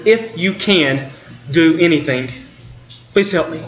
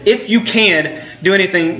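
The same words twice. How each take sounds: First: Doubtful plea. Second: "you" leaned on to show the doubt; stress on you. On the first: Retold or imitated. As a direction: let doubt drag through the request. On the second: Shown as a demonstration. Pastor repeating the father's phrase, stressing "you" doubtfully. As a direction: weigh "you" so the doubt shows in "If you can do anything". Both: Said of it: "That phrase is just dripping with doubt".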